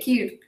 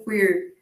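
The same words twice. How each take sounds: First: It is said with an English accent. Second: It is said with an American accent.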